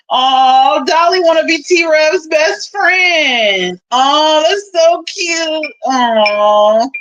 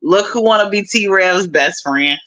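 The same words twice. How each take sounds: First: High, drawn-out sarcastic "aww"; mock cooing. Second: Said in the usual way. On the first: Teasing Dolly about wanting T-Rev's friendship, mock cooing. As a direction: coo as if at something adorable, mockingly.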